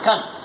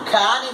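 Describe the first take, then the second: First: The word has a reduced, weak vowel. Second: The word has a full, clear vowel. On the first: "weak form is" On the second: "is the strong form"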